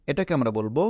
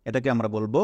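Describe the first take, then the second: No difference in how they are said.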